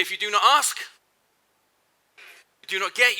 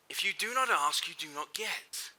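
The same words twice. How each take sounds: First: Said in the usual way. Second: Softer and slower, letting "get" fade; quiet slow. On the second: Shown as a demonstration. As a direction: drop the voice and slow down for the reprise. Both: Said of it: "Finish this sentence for me".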